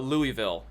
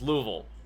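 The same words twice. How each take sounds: First: The name is said with more than two syllables. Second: The name is said with only two syllables. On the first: The speaker calls it wrong. "It should be uh Louisville" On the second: The speaker calls it right. "Like two syllables"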